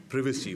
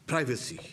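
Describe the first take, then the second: First: "privacy" with first syllable like "priv"; British-style "privacy", first vowel as in "give"; short-i privacy. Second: "privacy" with first syllable like "pry"; American-style "privacy", first vowel as in "eye"; long-i privacy. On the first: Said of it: "whatever you like to say". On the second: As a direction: say "privacy" as PRY-vuh-see. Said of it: "or privacy, whatever you like to say". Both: Shown as a demonstration.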